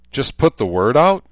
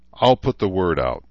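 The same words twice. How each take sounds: First: Higher, louder, rising disbelief; incredulous question. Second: Said in the usual way. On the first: A narrator's reading. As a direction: challenge him, you can't be serious. Daughter incredulous at father.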